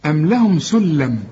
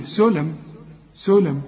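First: سلم with a firm doubled l, "sul-lam"; lam with shadda. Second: سلم with a single short l, "sulam"; lam without shadda. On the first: Teacher recites it with the shadda, doubled lam. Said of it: "إنما دي بقى عليها الشدة". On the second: Teacher shows the word lacking shadda, single lam. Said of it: "لو دي مفتوحة". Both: Shown as a demonstration.

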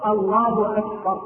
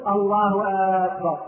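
First: Slow, careful "أكبر" with a short first vowel; correct takbir. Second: "أكبر" opened with a long questioning aa; wrong takbir. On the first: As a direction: say "أكبر" with a crisp short hamza, measured. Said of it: "والصواب أن يقول". (تكبير صحيح بهمزة قصيرة) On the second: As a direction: stretch the hamza of "أكبر" into "aakbar". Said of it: "الخطأ أن يقول". (تكبير خاطئ بمد همزة أكبر) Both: Shown as a demonstration.

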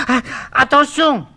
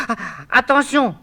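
First: Sharp frightened gasp, then a high cry; frightened high warning cry; alarmed gasp. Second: Higher cry of alarm, no gasp; sudden frightened warning. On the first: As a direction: gasp and shout a warning in panic. Eurydice warns Orphée not to turn. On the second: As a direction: call out a quick warning. Eurydice warns again. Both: Acted.

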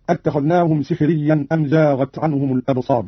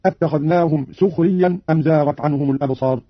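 First: Said in the usual way. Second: "سخريا" with u, as sukhriyyan; damma on the seen. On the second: Shown as a demonstration. Teacher demonstrates Qalun's reading, "سخريا" starting su-. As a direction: round the first vowel of "سخريا" to a short u. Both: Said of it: "بضم السين".

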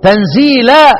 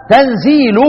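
First: تنزيلا ending in an open tanzeelan vowel; reading with final a. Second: تنزيل said with no case vowel, closed on the l; reading without final a. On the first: Teacher contrasting two readings, تنزيلا with final a. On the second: Teacher contrasting two readings, تنزيل ending on the l. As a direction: stop تنزيل short on the l. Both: Shown as a demonstration. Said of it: "أهو قرأ إيه؟".

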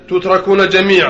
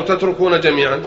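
First: تتركون read as tutrakuna, "u" first and "a" after the R; passive vowelling. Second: تتركون read as tatrukuna, opening on "a"; active vowelling. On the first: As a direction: say تتركون as tut-ra-koo-na. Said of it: "أو تتركون جميعًا". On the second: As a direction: say تتركون as tat-ru-koo-na. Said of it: "أو". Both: Shown as a demonstration.

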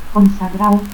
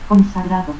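First: Consagrao without its D; dropped D. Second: Said in the usual way. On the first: Shown as a demonstration. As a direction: end in "-ao": Consagrao. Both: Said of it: "pérdida de la D intervocal".

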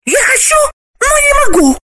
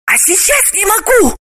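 First: Very high, loud woman's wail; high, loud female wail; desperate cry. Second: Much higher, voiced woman's plea; a hint of a hiss in a high woman's voice; desperate hiss. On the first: Acted. Galina's high voice continues. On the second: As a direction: plead desperately, high pitched. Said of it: "отчаянно прошипела Галина".

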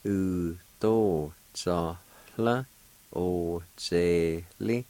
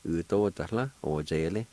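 First: "U, to, za, la, o, ze, li" stretched into separate syllables. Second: Said in the usual way. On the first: Shown as a demonstration. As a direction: sound out "U, to, za, la, o, ze, li" slowly, one syllable at a time. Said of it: "It's pronounced like this".

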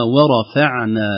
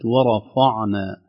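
First: ورفعنا with a thin fa after the ra; light fa. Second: ورفعنا slowly, with the fa darkened by the ra; wrong heavy fa. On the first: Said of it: "وليست ورفعنا". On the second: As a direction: thicken the fa of ورفعنا as a mistake. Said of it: "تأثر الفاء بالراء قبلها". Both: Shown as a demonstration.

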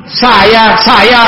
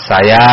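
First: High, disapproving echo; imitated displeasure. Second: Said in the usual way. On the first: The Prophet repeating Jabir's vague answer, imitated displeasure. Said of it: "seolah beliau tidak menyukainya". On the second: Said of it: "Maka saya jawab pada sahabat Jabir".

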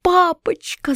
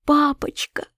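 First: High, desperate cry of «папочка»; a girl's frightened cry. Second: Breathless whisper, higher; child whispering «Папочка» in fright; whispered plea. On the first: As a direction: call «папочка» much higher, falling at the end. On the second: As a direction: gasp the word «Папочка» in a whisper. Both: A narrator's reading. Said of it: "закричала я".

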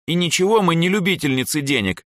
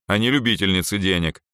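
First: High-pitched, huffy retort; offended. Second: Said in the usual way. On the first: A narrator's reading. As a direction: protest in a hurt, raised voice. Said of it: "обиженно буркнула Эльза". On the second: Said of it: "спокойно ответил я".

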